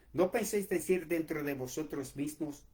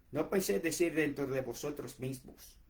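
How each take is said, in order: No difference in how they are said.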